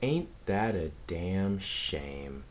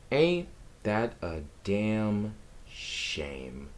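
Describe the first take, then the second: First: Mock lament. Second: Slow, drawn-out fake mourning; drawn-out mock lament. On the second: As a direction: stretch out the mock grief, very slowly. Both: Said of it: "I'm messing with you guys".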